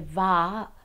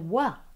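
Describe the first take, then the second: First: The syllable starts with a V sound. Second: The syllable starts with a W sound. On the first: This is how other communities say it. "we don't say va" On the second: This is how the speaker's community says it. "we say wa for the vav"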